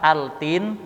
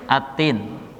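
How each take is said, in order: First: The L is pronounced clearly before the T. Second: The L merges into a doubled T sound. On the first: The speaker calls it wrong. "Bukan dibaca dengan altin" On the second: The speaker calls it right. "dimasukkan kepada huruf ta-nya atau diidghamkan pada huruf ta"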